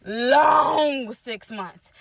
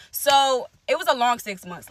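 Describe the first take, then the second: First: "long six months" stretched out very slowly with a tearful edge; slow weary emphasis. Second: Said in the usual way. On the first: Real, not acted. Recalling the painful months to viewers, slow weary stress. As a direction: drag out "long" like it hurt.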